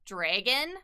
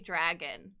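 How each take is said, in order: First: It is said with a Canadian vowel. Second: It is said with an American vowel. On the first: "we say dragon" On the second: "they say dragon"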